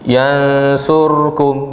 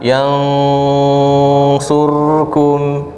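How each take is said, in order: First: The nasal sound is held only briefly. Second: The nasal sound is held for a long time. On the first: The speaker calls it wrong. "baru gitu. Baru dua gini" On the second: The speaker calls it right. "Harusnya yang benar"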